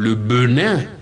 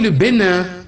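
First: The first vowel of Benin is a neutral 'e'. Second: The first vowel of Bénin is a closed 'é'. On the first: The speaker calls it wrong. "on ne peut pas dire" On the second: The speaker calls it right. "on dit"

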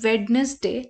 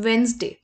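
First: The middle d is pronounced, three syllables. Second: The middle d is silent, two syllables. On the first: The speaker calls it wrong. "लोग इसको pronounce करते हैं as वेडनेसडे. But ये गलत है" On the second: The speaker calls it right. "ये डी silent होता है and it's pronounced as वेंसडे"

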